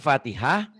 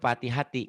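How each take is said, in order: First: The word ends with an h sound. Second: The word ends with a ti sound. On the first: The reading stops at this word. "kalau dihentikan fatihah" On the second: The reading continues past this word. "kalau dibaca apa adanya fatihati"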